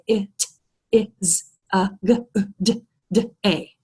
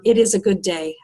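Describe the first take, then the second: First: "It is a good day" chopped into isolated phonemes; sound by sound. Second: Said in the usual way. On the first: Shown as a demonstration. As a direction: slowly pronounce each sound of "It is a good day" separately, with gaps. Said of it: "in phonemes or in sounds". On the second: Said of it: "I don't speak in phonemes".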